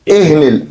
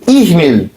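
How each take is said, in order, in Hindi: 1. पहला स्वर 'e' जैसा सुनाई देता है। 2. पहला स्वर 'i' जैसा सुनाई देता है। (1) "जो हिंदी उर्दू पढ़ने वाले जो लोग हैं वो एह निल मनफूश पढ़ेंगे" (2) "असल में क्या है ये, इहनिल"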